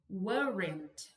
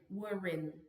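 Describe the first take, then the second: First: The final T is clearly and forcefully pronounced. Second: The word ends on the N without a T. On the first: "esse T tão forçado quanto eu tô fazendo para vocês perceberem aqui" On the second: "Acaba no N"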